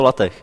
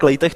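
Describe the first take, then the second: First: The first syllable sounds like 'lah'. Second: The first syllable sounds like 'lay'. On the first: The speaker calls it right. "je to Latech" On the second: The speaker calls it wrong. "No tak Lejtech to není"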